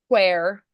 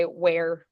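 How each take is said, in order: First: "where" with the H sounded, as "hwhere"; British pronunciation. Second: Said in the usual way. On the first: Shown as a demonstration. Coach showing how the British say it, "where" with an audible H. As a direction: say "where" with a breath of H before the W. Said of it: "they'll say". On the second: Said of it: "when we'd say".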